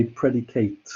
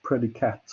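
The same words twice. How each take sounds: First: "predicate" ending in a full "-kate"; long "ay" in the last syllable of "predicate"; verb pronunciation. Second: "predicat" with a short final vowel, ending "-kat"; no long "ay" at the end of "predicat"; noun pronunciation. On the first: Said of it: "we pronounce it differently depending on what it is". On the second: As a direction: say "predicat" as the noun, last syllable like "cat". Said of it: "when you use it as a noun". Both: Shown as a demonstration.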